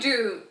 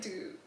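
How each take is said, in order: First: Loud, laughing disbelief; half-laughing outburst; incredulous dude. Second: Flat, much softer dude; quiet unamused dude; deadpan dude. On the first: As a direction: blurt it out in mock shock. Surprised, laughing retelling. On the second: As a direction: drop it dry and unimpressed. Second deadpan take. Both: Retold or imitated.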